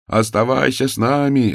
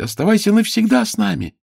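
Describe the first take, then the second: First: Raised, less high call; an echo from the crowd. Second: High, loud pleading call; excited shout. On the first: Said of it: "раздавалось со всех сторон". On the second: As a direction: beg her to stay, shouting. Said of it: "закричали дети". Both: A narrator's reading.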